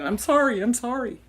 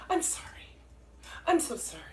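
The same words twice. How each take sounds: First: Louder, quick repeated apology; reflexive apology. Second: Soft, breathy-free murmured sorry; Minnesota apology. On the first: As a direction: blurt out the sorries like a habit. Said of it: "because I keep saying". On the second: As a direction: mumble the apology under your breath. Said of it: "People from Minnesota are always apolo". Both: Retold or imitated.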